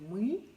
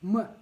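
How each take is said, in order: First: The vowel is pronounced the Russian way. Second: The vowel is pronounced the Bashkir way. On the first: "в русском языке говорим «мы»" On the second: "в башкирском языке э, будет звучать так"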